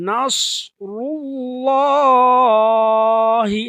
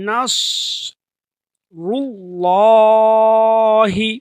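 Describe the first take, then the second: The two takes are said the same way.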